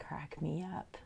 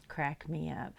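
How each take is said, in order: First: Soft aside whisper. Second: Said in the usual way. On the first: Real, not acted. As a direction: whisper it breathily under the breath. Said twice, whispered then aloud.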